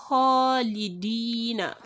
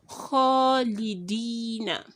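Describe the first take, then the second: Both takes have the same delivery.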